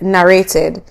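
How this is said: The word is said in a Jamaican accent. "my Jamaican accent is like narrated"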